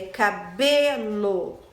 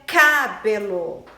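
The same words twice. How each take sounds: First: The stress is on the middle syllable. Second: The stress is on the first syllable. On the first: The speaker calls it right. "É cabelo. ... É a sílaba B" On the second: The speaker calls it wrong. "Não é cabelo"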